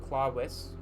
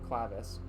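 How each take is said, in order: First: The middle consonant sounds like a W. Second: The middle consonant sounds like a V. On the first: "as the uh, proper pronunciation" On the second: "or clavis"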